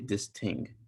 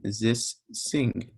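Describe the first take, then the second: First: The word starts with a t sound. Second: The word starts with an s sound. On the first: A speaker with a Jamaican accent says it this way. "someone with a Jamaican accent, they would say this ting" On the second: A speaker whose language lacks th says it this way. "they're going to say this sing"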